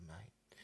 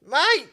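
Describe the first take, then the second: First: Very soft, understated "Mate."; barely voiced greeting to old friends; hushed greeting. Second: High, loud yell of "Mate!"; alarmed shout. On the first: Dead friend's return, retold hushed. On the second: Retold or imitated. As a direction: drunk passenger yelling a warning at the driver. Drunk passenger alarmed as car drifts.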